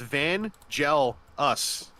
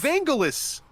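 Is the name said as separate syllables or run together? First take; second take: separate; run together. First: The name is said as three separate words. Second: The name is run together as one word. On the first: The speaker calls it right. "it's literally three words" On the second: The speaker calls it wrong. "people always mispronounce my internet name"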